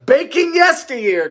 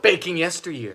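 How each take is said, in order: First: "Yesteryear" stretched out slowly and higher; proud title plug. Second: Said in the usual way. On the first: Shown as a demonstration. Host plugging her own cookbook, proud emphasis. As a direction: savour the book title "Yesteryear". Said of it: "it's found in my new cookbook". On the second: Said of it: "pre-ordering my new cookbook".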